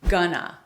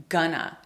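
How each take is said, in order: First: The words are reduced into one short word. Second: The same.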